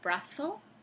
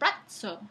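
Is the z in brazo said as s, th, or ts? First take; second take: th; ts. First: The z is said as a th sound. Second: The z is said as a ts affricate. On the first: This is how people in Spain say it. "dicen los españoles brazo" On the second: This is the medieval pronunciation. "en la época medieval se decía brazo, con esa africana tz"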